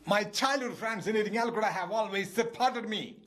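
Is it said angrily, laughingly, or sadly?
angrily. It is shouted in an angry, exasperated voice.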